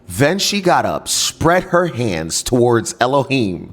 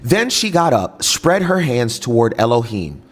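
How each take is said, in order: First: It is read more slowly. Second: It is read too fast.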